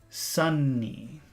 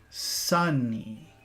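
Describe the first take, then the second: No difference in how they are said.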